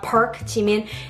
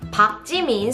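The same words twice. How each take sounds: First: The family name sounds like the English word park. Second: The family name has a Korean pronunciation, unlike park. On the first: The speaker calls it wrong. "It's not [name]" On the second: The speaker calls it right. "it's [name]"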